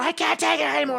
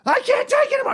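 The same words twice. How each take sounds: First: High, desperate wail; freaking out again. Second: High, strained cry of panic; freaking out. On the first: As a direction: sob it out, high and pleading. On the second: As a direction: break down, voice cracking high. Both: Retold or imitated. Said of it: "I'm just freaking out".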